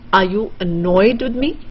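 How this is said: The stress falls on the word annoyed. "you want to stress on annoyed"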